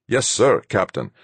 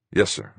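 First: Bright, high eager reply; beaming. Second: Said in the usual way. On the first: A narrator's reading. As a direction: answer with a proud beaming smile. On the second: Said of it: "I said".

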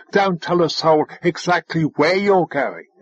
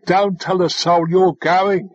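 First: "where" leaned on after "exactly"; stress on where. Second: "going" given clear weight; stress on going. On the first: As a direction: pick out "where" as the contrast. Contrasts with what was meant. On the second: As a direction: land firmly on "going" as the point. Clarifies what the instruction meant. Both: A narrator's reading.

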